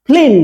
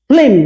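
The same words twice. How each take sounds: The two takes are said the same way.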